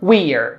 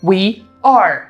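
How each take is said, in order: First: Merged into one short syllable, we're. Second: Two separate words, we and are.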